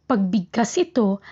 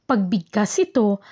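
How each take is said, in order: Both takes have the same delivery.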